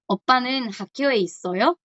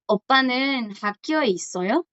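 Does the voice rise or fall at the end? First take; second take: rise; rise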